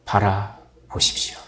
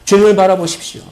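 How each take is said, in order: First: Whisper. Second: Said in the usual way. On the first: Acted. Urging congregation to look.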